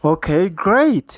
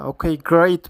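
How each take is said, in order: First: Drawn out very slowly, word by word; slow modelled repeat. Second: Said in the usual way. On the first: Shown as a demonstration. Teacher models the clip line for students, very slow. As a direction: stretch each word out for the learners. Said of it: "ኢላ ተወሳኺ". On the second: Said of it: "ማለት ኸ".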